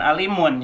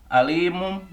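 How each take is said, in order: First: The word ends with an n sound. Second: The word ends with an m sound. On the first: The speaker calls it wrong. "bukan alimun ya" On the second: The speaker calls it right. "Jadi bacanya alimum"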